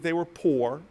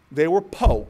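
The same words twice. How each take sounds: First: Said in the usual way. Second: "po" said as "poh", louder; dropped final R. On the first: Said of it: "They were po, P O". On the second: Shown as a demonstration. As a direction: say "po" with no R at the end. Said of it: "P O. They couldn't afford the other two letters".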